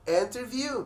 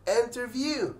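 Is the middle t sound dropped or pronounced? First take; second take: pronounced; pronounced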